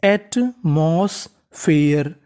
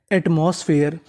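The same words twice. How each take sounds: First: एटमॉस्फेयर very slow, in separate pieces; syllable-by-syllable. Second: Said in the usual way. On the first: Shown as a demonstration. Teacher assembles the word for learners, syllable-by-syllable. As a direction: draw out each part of एटमॉस्फेयर with gaps. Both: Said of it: "तो meaning बनी".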